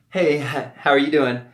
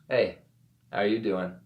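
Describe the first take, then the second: First: It sounds nervous, fast and high-pitched. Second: It sounds calm, slower and lower-pitched.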